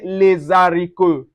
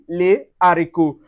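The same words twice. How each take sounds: First: A z sound links the article to the noun. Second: No z sound joins the article and noun. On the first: The speaker calls it wrong. "So we don't say les haricots" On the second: The speaker calls it right. "No, on dit les haricots"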